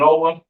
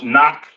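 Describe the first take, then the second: First: The name is said with English pronunciation. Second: The name is said with Hebrew pronunciation.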